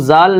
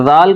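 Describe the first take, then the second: First: "زال" with a plain z; wrong way. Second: "زال" as the proper letter sound; correct way. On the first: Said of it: "زال نہیں کہنا ہے". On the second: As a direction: say "زال" the right way. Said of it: "زال کہنا ہے". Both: Shown as a demonstration.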